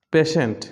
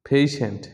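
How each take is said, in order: First: পেশেন্ট as "PEH-shent"; short first vowel in পেশেন্ট; common mispronunciation. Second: পেশেন্ট as "PAY-shent"; correct pronunciation. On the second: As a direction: glide the first vowel of পেশেন্ট from e to i. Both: Shown as a demonstration. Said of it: "পেশেন্টটা কী হবে".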